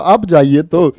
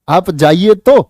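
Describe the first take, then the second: First: It sounds like simply sending someone off. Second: It sounds like a dare to go.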